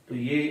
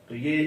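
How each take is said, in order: No difference in how they are said.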